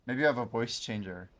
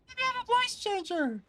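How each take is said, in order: First: Said in the usual way. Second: Very high, far from own voice; voice-changer squeak; squeaky high voice. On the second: Shown as a demonstration.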